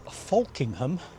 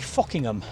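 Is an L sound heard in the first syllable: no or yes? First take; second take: yes; no. First: The first syllable is said with an L sound. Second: The first syllable is said without an L sound. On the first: This is how it is spelled on the map. "on the map you'll see it says" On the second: This is how local people say it. "here they say"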